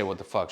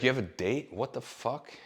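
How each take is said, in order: First: Said in the usual way. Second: Higher, stunned question from the roommate; mock her outrage at the news; shocked disbelief. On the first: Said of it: "she didn't say". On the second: Roommate hears he has a date, shocked question. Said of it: "she's like".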